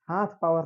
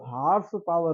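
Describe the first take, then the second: First: The first word is said as 'haath'. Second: The first word is said as 'horse'. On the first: The speaker calls it wrong. "हाथ power नहीं होता बेटा" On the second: The speaker calls it right. "वो हॉर्स power होता है"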